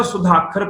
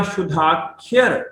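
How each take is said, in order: First: ਸੁਧਾਖਰ quickly, with a plain khar ending; common misreading. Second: ਸ਼ੁਧਾਖਰ slowly, ending in khi-ar; correct pronunciation. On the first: Teacher quoting the usual misreading, ਸੁਧਾਖਰ ending in khar. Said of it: "ਇਹਨੂੰ ਅਕਸਰ ਸੁਧਾਖਰ ਪੜ੍ਹਿਆ ਜਾਂਦਾ". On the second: Teacher building it letter by letter, ਸ਼ੁਧਾਖਰ with khiar. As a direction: stretch ਸ਼ੁਧਾਖਰ as shu-dhaa-khiar. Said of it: "ਖੱਖੇ ਨੂੰ ਸਿਹਾਰੀ ਤੇ ਅੱਗੇ ਲੱਗ ਗਿਆ ਐੜਾ". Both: Shown as a demonstration.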